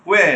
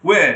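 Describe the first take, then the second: No difference in how they are said.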